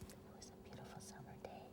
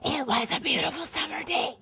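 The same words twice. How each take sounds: First: It is whispered quietly. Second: It is said in a full voice.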